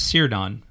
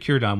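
First: The name begins with an S sound. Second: The name begins with a K sound. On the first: The speaker calls it wrong. "You might look at that and want to pronounce it as Círdan" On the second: The speaker calls it right. "But it's actually Círdan. Whenever you see a C by itself like that, it's pronounced as a K sound"

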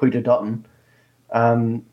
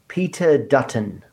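First: The name is said in an Australian accent. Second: The name is said in an American-style accent.

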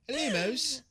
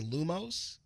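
First: It is said in a put-on British accent. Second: It is said in a plain American accent.

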